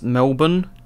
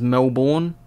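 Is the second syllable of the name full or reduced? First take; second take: reduced; full. First: The second syllable is short and reduced. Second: The second syllable is full, like the spelling. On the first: This is how locals say the name. "Over here in Australia, we pronounce it as Melbourne" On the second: This is how the name looks from its spelling. "spelt like how you're meant to pronounce it as Melbourne"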